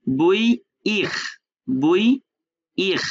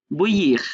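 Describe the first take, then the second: First: বুইইখ very slowly, rising bui, pause, falling iikh; teacher drawing out বুইইখ with a rasped French r; syllable-by-syllable demonstration. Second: Said in the usual way. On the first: Shown as a demonstration. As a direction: stretch বুইইখ in two parts, final r fully sounded. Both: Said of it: "শেষে আই আর থাকলে উচ্চারণ হয় পুরোটাই".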